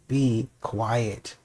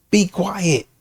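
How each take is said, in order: First: Dropped to a near hush. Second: Said in the usual way. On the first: Shown as a demonstration. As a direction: say it softly, almost under breath.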